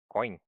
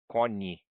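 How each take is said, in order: First: It ends with an i glide before n. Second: It ends with a plain n, no glide. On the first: The speaker calls it right. "como se tivesse um i aqui do ladinho" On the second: The speaker calls it wrong. "Só que não é cone"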